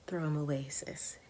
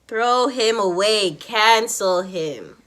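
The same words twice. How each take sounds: First: Hushed, near-whispered advice; quiet aside. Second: "Throw him away. Cancel him." slow and loud, each word weighted; emphatic stress. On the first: Advising a sis to drop a stingy guy, quiet aside. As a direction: say it low, under your breath. Low first take, then emphatic repeat. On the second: Urging viewers to drop him, emphatic stress on "Throw him away. Cancel him.". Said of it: "I can't even stress how much that is". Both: Real, not acted.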